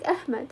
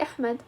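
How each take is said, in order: First: "أحمد" with ه in place of ح; English speaker's mispronunciation. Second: "أحمد" with a throaty Arabic ح; Arabic ح pronunciation. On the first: Retold or imitated. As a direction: say "أحمد" as Ahmad, with a plain English h. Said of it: "هو عنده صوت الهاء". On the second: Shown as a demonstration. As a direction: say "أحمد" with the ح made in the pharynx. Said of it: "ما عنده صوت الحاء".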